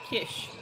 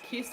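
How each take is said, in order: First: The name ends with an sh sound. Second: The name ends with a plain s sound. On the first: The speaker calls it right. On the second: The speaker calls it wrong.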